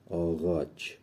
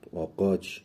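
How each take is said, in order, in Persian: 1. صامت وسط صدای «غ» نرم است. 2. صامت وسط صدای «ق» عقبی است.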